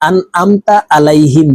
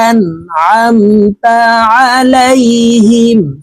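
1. 'ain' ধ্বনিটি দুর্বল, গলায় কোনো চাপ ছাড়া। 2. 'ain' ধ্বনিটি গলার মাঝখান থেকে চাপ দিয়ে বলা হয়। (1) "আনআমতা আলাইহিম বললে সঠিক উচ্চারণ হবে না।" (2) "এখানে আইন হরফ হালকের মধ্যখান থেকে চাপ দিয়ে উচ্চারণ করব।"

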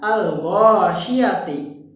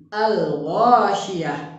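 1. Kata ini berakhir dengan bunyi 't' dan 'i'. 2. Kata ini berakhir dengan bunyi 'h' mati. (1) "ada bacaan al-ghasyiyati" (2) "maka wakafnya menjadi al-ghasyiyah"

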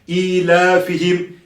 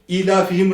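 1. ilafihim kelimesindeki ünlü uzatılır. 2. ilafihim kelimesindeki ünlü kısa okunur. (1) "Bunu uzatmamız lazım" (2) "Hızlı okunurken özellikle ilafihim rehlete şitâ ve sayf diye geçiliyor"

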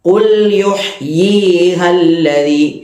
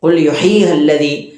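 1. 'yi' സ്വരം നീട്ടി ദീർഘമാണ്. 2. 'yi' സ്വരം ഹ്രസ്വമാണ്, നീട്ടുന്നില്ല.

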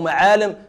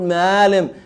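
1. صوت الحلق 'ain' منطوق بوضوح. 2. صوت الحلق 'ain' غير منطوق. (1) "لو قلت قول علم أو معالم" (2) "فيقول معالم، لا يستطيع حرف العين"

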